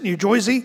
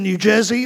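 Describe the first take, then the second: First: It is said imitating a local New Jersey accent. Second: It is said in the speaker's ordinary accent.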